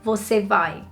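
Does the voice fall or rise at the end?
fall. The pitch falls at the end like a statement. It states that the person is going. "the same way as saying you are going"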